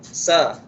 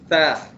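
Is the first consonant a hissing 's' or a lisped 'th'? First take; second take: hissing 's'; lisped 'th'. First: It starts with a hissing 's' sound. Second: It starts with a tongue-between-teeth 'th' sound. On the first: The speaker calls it wrong. "sa tu biasa untuk huruf sin" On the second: The speaker calls it right. "Hujung lidah kita letak dekat dekat hujung gigi"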